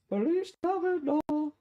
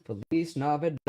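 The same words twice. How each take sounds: First: Slow, very high chipmunk voice; helium voice. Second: Said in the usual way. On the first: Shown as a demonstration. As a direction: sing it like a sped-up chipmunk. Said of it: "Alvin and the Chipmunks episode". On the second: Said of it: "my voice doesn't actually sound like this".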